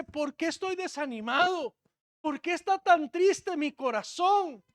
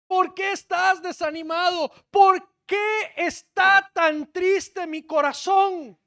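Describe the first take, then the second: First: Said in the usual way. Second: Slow, higher, loud shouted question; loud lament. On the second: Acted. Preacher crying David's psalm to the church, loud and slow. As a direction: hurl the question out in anguish.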